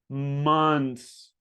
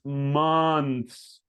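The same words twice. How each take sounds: The two takes are said the same way.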